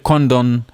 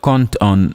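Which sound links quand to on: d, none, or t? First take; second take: d; t. First: A d sound links the two words. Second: A t sound links the two words. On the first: The speaker calls it wrong. "we will not say condon" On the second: The speaker calls it right. "It would sound like cont on emalad"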